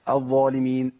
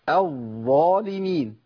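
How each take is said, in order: First: The doubled letter is rushed through quickly. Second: The doubled letter is held steadily and unhurried. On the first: The speaker calls it wrong. "دايما بحذر من الجري" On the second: The speaker calls it right. "انا جبتها كده صواب بالشكل الصحيح"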